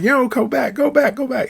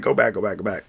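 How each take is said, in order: First: Retold panic, yelling at the cab driver to turn around; panicked scream. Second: Said in the usual way. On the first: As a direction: shriek it like he just got a shock. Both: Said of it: "He started screaming".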